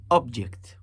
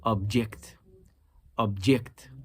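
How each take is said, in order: First: "Object" with OB punched, then falling; stress on first syllable. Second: "Object" with JECT stressed, as the verb; stress on second syllable. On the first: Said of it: "Listen to the first one". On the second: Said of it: "And the second one". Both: Shown as a demonstration.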